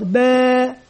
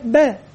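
First: "باء" with the aa held for two counts; long vowel. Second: Said in the usual way. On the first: Shown as a demonstration. Teacher reviewing the natural madd, "باء" with drawn-out vowel. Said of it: "ألف مد طبيعي حركتان". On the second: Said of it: "مراجعة على الدرس الأول".

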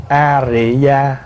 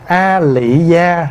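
First: A Rị Gia, slowly, with R in Rị; R pronunciation. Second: A Lị Gia, slowly, with L in Lị; L pronunciation. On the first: Monk asks if this reading is correct, R pronunciation. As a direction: sound out A Rị Gia with R replacing L. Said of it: "hay mình đọc A Rị Gia đúng". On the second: Monk asks which reading is correct, L pronunciation. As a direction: sound out A Lị Gia with an L. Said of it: "mình đọc là A Lị Gia đúng". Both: Shown as a demonstration.

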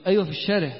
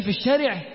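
First: Said in the usual way. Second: Retold friend's mild disbelief; astonished question. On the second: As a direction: ask it back, taken aback by the idea. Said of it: "فبص لي باستغراب".

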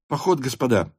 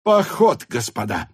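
First: Said in the usual way. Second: "Поход" cried high and loud; elated announcement. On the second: Acted. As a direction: call out "Поход" high, then drop. Officers exclaim at marching orders. (радостно и громко выкрикнуть: «Поход»)

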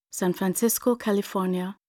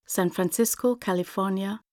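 Both takes have the same delivery.

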